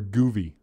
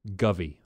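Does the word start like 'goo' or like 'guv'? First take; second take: goo; guv. First: The first vowel sounds like 'goo'. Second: The first vowel sounds like 'guv'. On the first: The speaker calls it wrong. "I'm saying it wrong" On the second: The speaker calls it right.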